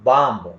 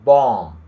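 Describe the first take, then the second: First: The word ends with an audible b sound. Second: The word ends in an m sound, no b. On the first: The speaker calls it wrong. "Not" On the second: The speaker calls it right. "ಬಿ ಉಚ್ಚಾರಣೆಯಾಗುವುದಿಲ್ಲ"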